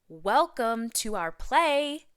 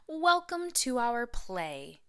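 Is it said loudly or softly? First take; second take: loudly; softly. First: It is said in a louder voice. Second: It is said at normal loudness.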